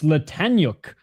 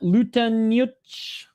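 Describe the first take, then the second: First: The name ends with a 'k' sound. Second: The name ends with a 'ch' sound. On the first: The speaker calls it right. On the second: The speaker calls it wrong.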